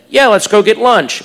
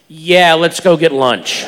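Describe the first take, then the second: First: It is said in a plain, neutral tone. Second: It is said in a knowing, suggestive tone.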